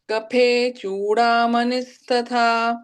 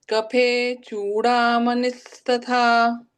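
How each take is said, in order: Both takes have the same delivery.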